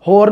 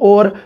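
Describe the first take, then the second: First: The word begins with an 'h' sound. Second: The word begins directly with a vowel. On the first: This is the standard Punjabi form. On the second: This is the Dogri form.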